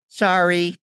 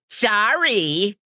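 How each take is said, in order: First: It is said in a plain, sincere apologetic tone. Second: It is said in a dismissive, sarcastic teenage tone. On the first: A genuine apology. "I knew not to say sorry" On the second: Not an apology but a rude brush-off. "it's not really sorry, it's F off"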